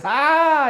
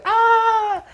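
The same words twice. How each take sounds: First: Much higher yelp, a step up from the first; hammed-up second yelp; higher startled yelp. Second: Very high squeal, the top of the build; hammed-up peak of shock; squealing shriek. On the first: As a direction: push the shocked cry higher. Recognition gag, repeated louder. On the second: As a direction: go all the way up into a shriek. Third escalating recognition yelp.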